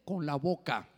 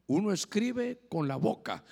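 First: Said in the usual way. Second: "escribe" stressed, slow, falling to "boca"; slow emphatic repeat. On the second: Shown as a demonstration. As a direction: land every word of "Uno escribe con la boca" slowly.

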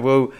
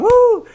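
First: Said in the usual way. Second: Very high celebratory woo; re-enacted fan whoop, pitched way up; excited whoop. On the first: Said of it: "I don't know if he was going". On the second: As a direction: let out a high cheer. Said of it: "I was in my bed going".

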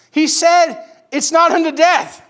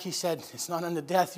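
First: High, loud, slow and emphatic; excited proclamation. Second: Very soft, gentle bedside comfort; soothing reassurance. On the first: Servants bringing the Lord's word back, excited proclamation. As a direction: proclaim good news to the whole room, drawn out. Messengers proclaim the good news. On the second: Sisters wiping Lazarus's feverish brow, soothing reassurance. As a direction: keep it hushed for the sick one. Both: Acted.

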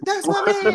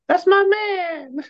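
First: Put-on high girly swoon; girl voice. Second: Put-on high, slow swooning girl voice. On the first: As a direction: squeal it like a smitten girlfriend. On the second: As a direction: gush it like a girlfriend in love. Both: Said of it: "you need to do your girl voice more often".

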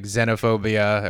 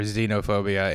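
First: "xenophobia" said ZEN-oh-phobia; short-e xenophobia. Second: "xenophobia" said ZEE-no-phobia; long-e xenophobia. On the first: Listing phobia words, "xenophobia" starting like zen. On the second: Offering the other pronunciation, "xenophobia" starting with zee. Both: Shown as a demonstration. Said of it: "there's words like xenophobia or xenophobia".

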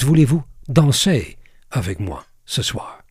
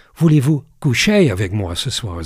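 First: French lyric with a light English accent; French words in an English speaker's mouth. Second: French lyric sung-spoken with a light English accent. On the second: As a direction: say the French line like an English speaker would. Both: Shown as a demonstration. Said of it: "Ik doe het een beetje met een Engels accent".

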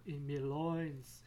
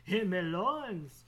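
First: Said in the usual way. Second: Slow, loud, drawn-out and hammed-up; loud theatrical repeat; mock dramatic loins. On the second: Shown as a demonstration. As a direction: belt it out like a joke melodrama. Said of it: "laughs then repeats louder".

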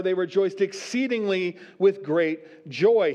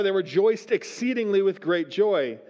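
First: Slow, each word weighed, "exceedingly" leaned on and "great joy" drawn out; slow down and press "exceedingly" and "great joy" for emphasis; stress on exceedingly and great joy. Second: Said in the usual way. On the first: Shown as a demonstration. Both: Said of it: "He really wanted to emphasize".

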